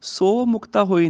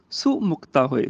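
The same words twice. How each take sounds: First: ਸੋ with a long o. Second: ਸੋ said as a short "su". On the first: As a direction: stretch ਸੋ as "soh". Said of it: "ਨਹੀਂ ਕਹਿਣਾ". (ਸੋ ਵਿੱਚ ਹੋੜੇ ਦੀ ਲੰਮੀ ਆਵਾਜ਼) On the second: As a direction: clip the vowel of ਸੋ to u. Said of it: "ਸੱਸੇ ਨੂੰ ਔਂਕੜ ਹੈਗੀ". (ਸੋ ਨੂੰ ਔਂਕੜ ਨਾਲ "ਸੁ" ਬੋਲੋ) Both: Shown as a demonstration.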